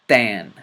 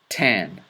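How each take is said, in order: First: It starts with the tongue held behind the teeth. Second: It starts with a regular English t sound. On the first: "then with the letter ta" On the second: "first with the letter T"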